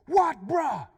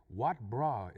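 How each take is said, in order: First: High, loud confrontational yell; angry Pidgin challenge. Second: Said in the usual way. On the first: Retold or imitated. Driver yells out his window while passing, angry challenge. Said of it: "tell him exactly what I was feeling". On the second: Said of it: "anybody who've ever spoken Pidgin".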